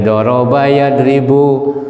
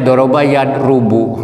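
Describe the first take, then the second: First: The second word has an 'i' vowel after 'r'. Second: The second word has a 'u' vowel after 'r'. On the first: The speaker calls it right. "kasrin fiil mudhari'nya" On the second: The speaker calls it wrong. "jangan sampai doroba yad rubu"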